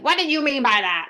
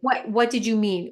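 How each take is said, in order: First: It sounds judgmental and accusing. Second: It sounds curious and open.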